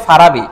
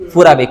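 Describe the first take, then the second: First: Said in the usual way. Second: ফুরাবি with an u sound in the first syllable instead of a; ফুরাবি pronounced fu, not fa; wrong vowel shown. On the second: Shown as a demonstration. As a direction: say ফুরাবি as fu-ra-bi, the mistaken form. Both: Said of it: "কই ফারাবি আর কই ফুরাবি".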